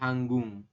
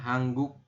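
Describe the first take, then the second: First: The word ends in an ng sound. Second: The word ends in a k sound. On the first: The speaker calls it right. "tapi hanggung" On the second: The speaker calls it wrong. "Bukan hangguk"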